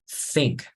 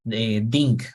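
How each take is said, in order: First: The first sound is th, tongue between teeth. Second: The first sound is a d-like stop. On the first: The speaker calls it right. "You need to take out your your tongue and then you say th" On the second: The speaker calls it wrong. "this word is not pronounced uh, ding"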